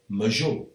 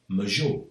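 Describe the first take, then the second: Both takes have the same delivery.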